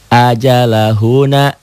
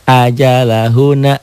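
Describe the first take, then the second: Both takes have the same delivery.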